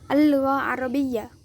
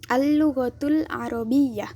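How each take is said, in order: First: The phrase is said with an ending dropped. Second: The phrase is said in full. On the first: This is the colloquial form. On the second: This is the standard form.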